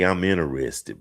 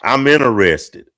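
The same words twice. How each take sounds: First: Polite, slightly lowered declaration of interest; understated, courteous approach; not rude. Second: Loud, higher-pitched declaration of interest; mock-bold pick-up line, pushed out loud; abrupt approach. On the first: Shown as a demonstration. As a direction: say it politely, without pushing. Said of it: "but not rudely". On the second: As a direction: announce it bluntly to a stranger. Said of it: "I just walk up to a woman".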